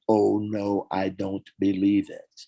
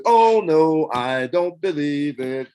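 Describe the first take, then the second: First: Calm replay of the line he called wrong; line quoted again. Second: The take the bandleader stopped as wrong intonation. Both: Retold or imitated. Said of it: "wrong intonation".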